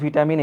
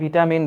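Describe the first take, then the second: First: The first syllable sounds like 'vih'. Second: The first syllable sounds like 'vih'.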